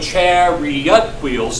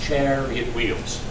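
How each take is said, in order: First: Chariot is said with three full syllables. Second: Chariot is squeezed into two syllables. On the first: The line breaks its regular meter. The speaker calls it wrong. "if we go chariot wheels, then we got a problem" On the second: The line keeps its regular meter. The speaker calls it right. "We're going to use elision... we get three into two"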